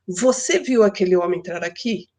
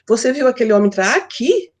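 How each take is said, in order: First: The emphasis falls on the word você. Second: The emphasis falls on the words entrar aqui. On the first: The question is whether the listener saw it. "quero dar ênfase em você" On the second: The question is whether he came into this place. "Eu quero saber se ele entrou aqui, no lugar"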